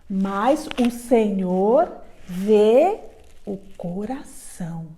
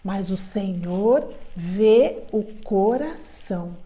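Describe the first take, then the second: First: The sentence is said at a normal pace. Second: The sentence is said very fast.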